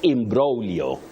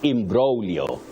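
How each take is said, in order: The two takes are said the same way.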